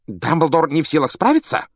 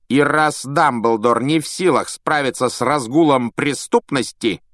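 First: High rising anxious echo; Fudge agitated. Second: Measured superior statement; Malfoy cold. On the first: Fudge echoing Malfoy, anxious disbelief. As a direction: repeat it in disbelief. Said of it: "Фадж разволновался". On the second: Malfoy to Fudge, cold pointed statement. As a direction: press the point coldly. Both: A narrator's reading.

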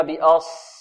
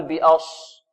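First: بأص with heavy ص, lips not rounded; heavy saad, unrounded. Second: بأص said with lips rounded on the ص; wrong saad with rounded lips. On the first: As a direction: thicken the ص of بأص without pursing the lips. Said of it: "وتفخيمها بدون ضم الشفتين". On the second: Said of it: "لا نقول". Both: Shown as a demonstration.

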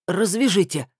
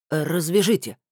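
First: Higher-pitched, firm order; commanding. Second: Stubborn, insistent demand. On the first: Captive ordering his captors to untie him, commanding. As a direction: give it as an order, no pleading. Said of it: "а приказал Николай Иванович". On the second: Captive repeating his demand to captors, stubborn. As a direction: repeat the demand, refusing to budge. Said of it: "упрямо повторил пленник". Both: A narrator's reading.

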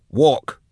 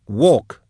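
First: High, curt one-word command, only mildly hissed; a touch of menace, pitched up; hissed order. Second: High, sudden one-word command; impatient captor's curt order, pitched up; snapped order. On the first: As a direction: order "Walk" as an impatient captor. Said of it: "she hissed". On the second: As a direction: snap "Walk" at a stalling prisoner. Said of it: "she snapped". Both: A narrator's reading.

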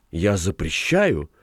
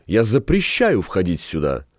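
First: Slow, understated helpless ban; helpless protest. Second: Firm, understated prohibition; mildly exclaimed ban. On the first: Governess trails after the girls repeating her ban, mildly helpless. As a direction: draw it out, giving up on being obeyed. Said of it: "беспомощно повторила гувернантка". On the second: Governess forbids the girls to enter, mildly firm exclamation. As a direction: forbid them with restrained firmness. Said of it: "Их спутница вскричала". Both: A narrator's reading.

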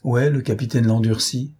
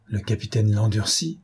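First: Mildly threatening demand; understated threat from a bandit chief; menacing. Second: Puzzled echo of the name; mild surprise, rising at the end; surprised. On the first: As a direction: put a touch of menace in the question. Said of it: "me dit d'une voix menaçante". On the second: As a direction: repeat it as an understated, astonished question. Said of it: "avec une surprise extrême". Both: A narrator's reading.

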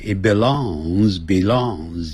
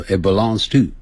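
First: Slow and careful. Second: It belongs to run together quickly; fast linked. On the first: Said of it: "你可以念慢一点". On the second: Teacher showing the fast native way to say it. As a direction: rattle off it belongs to in one breath. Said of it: "但念快的时候". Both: Shown as a demonstration.

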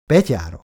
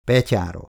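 First: Louder echo of the toast PETYÁRA; narrated group echo of Petyára, falling; others repeating toast. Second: Said in the usual way. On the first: A narrator's reading. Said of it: "ismételték a többiek". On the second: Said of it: "Vereckei csak ennyit mondott".

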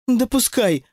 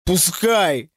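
First: Higher-pitched offhand toss; lightly voiced indifference; offhand remark. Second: Strained, mildly sobbed exclamation; narrated sob, kept understated; tearful cry. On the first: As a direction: let it drop dismissively. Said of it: "уронила Алиса". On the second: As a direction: wail it with a touch of tears. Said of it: "прорыдал Вова". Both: A narrator's reading.

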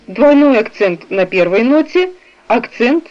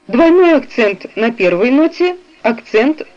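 The two takes are said the same way.

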